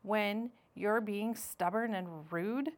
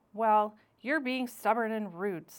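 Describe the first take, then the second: First: Said in the usual way. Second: Louder, with "you're" hit hard; firm scolding. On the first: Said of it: "Remember how you asked me". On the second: Acted. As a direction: Missus Beaver calls her husband out. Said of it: "point out when you're being stubborn and rude".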